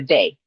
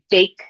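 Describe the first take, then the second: First: The final k sound is left off. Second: The word ends with a k sound.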